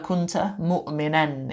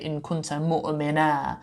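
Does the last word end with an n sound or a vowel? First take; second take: n sound; vowel. First: The last word ends with an n sound. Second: The last word ends with a plain vowel. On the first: This is the full written form. "is how it would be written" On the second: This is the recited pausal form. "a rule of tajweed where you say"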